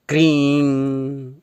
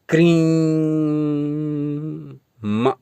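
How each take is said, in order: First: It ends in a plain nasal vowel. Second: It ends with an added m sound. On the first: The speaker calls it right. "केवल इस बिंदी का ही उच्चारण करें" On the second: The speaker calls it wrong. "क्रीं म न जोड़ें"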